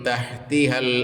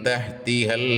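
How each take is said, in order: The two takes are said the same way.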